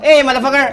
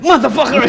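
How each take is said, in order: First: It sounds like a friendly greeting to a friend. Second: It sounds like a shocked exclamation.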